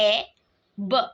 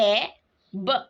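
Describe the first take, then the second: No difference in how they are said.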